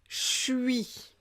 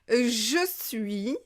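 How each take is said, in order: First: The words merge into one short syllable. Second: Both words are said in full.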